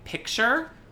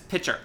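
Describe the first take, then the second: First: A k sound is heard before the ch. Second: No k sound is heard before the ch. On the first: The speaker calls it right. "instead of saying picture" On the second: The speaker calls it wrong. "she says pitcher"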